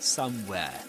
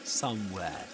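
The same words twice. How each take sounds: Both takes have the same delivery.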